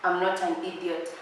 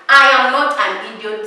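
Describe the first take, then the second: First: Muttered denial. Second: I punched hard, much louder; loud, firm I am not an idiot; loud insistence. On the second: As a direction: shout it back at him. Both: Shown as a demonstration.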